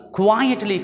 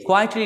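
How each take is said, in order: First: کوائٹلی as kwai-et-li; correct pronunciation. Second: کوائٹلی as kaitli; wrong take کوائٹلی without the w; wrong pronunciation. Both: Shown as a demonstration. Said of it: "کوائٹلی نہیں".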